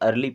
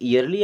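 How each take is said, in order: First: The word begins with a plain vowel sound. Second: The word begins with a 'y' sound. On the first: The speaker calls it right. "इसे अर्ली पढ़ते हैं" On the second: The speaker calls it wrong. "ईयरली अगर पढ़ते हैं तो फिर ये गलत हो जाएगा"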